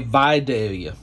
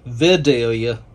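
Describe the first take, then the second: First: It is said the local Southern Georgia way. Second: It is said the common, non-Southern way. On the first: This is how locals in Georgia say it. "in the South, in Georgia, we say Vidalia" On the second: This is how most people elsewhere say it. "A lot of people will say Vidalia"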